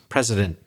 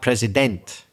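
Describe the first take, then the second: First: The final syllable has a reduced schwa vowel. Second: The final syllable has a full 'eh' vowel. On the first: The speaker calls it right. "That's the classic schwa sound at the end of a word" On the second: The speaker calls it wrong. "too much eh there in the final vowel"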